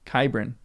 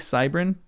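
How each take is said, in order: First: The name begins with a hard K sound. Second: The name begins with a soft S sound. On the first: "I'm gonna say it with a a elfish hard K hard C" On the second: "it might be Cybrin"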